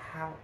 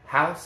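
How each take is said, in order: First: The word is breathy, longing, with a stretched vowel. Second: The word is said plainly, without feeling. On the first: The speaker desperately wants to live in a house. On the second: It simply names a structure people live in.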